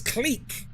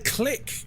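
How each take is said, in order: First: The word does not sound like 'click'. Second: The word sounds exactly like 'click'. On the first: The speaker calls it right. "It's clique. It's a French word" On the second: The speaker calls it wrong. "they say click"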